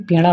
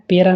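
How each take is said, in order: First: Said in the usual way. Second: पेरा with plain r for the flap; mispronunciation. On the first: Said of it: "पेड़ा होता है". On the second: Shown as a demonstration. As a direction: say पेरा, tongue not curled back. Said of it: "पेरा नहीं". (पेरा में 'ड़' की जगह 'र')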